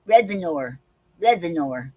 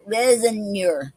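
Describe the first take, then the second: First: Raisineur repeated as ray-zuh-NOR, falling each time; repeated French word. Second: Raisineur said slowly as ray-zuh-NUR with a falling close; careful French word. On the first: Checking she can still say the word of the day, repeated French pronunciation. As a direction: say raisineur twice more, settling the French ending. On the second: Practicing the word of the day aloud, careful French pronunciation. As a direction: sound out Raisineur syllable by syllable, French style. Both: Shown as a demonstration. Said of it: "let me see if I can still do it".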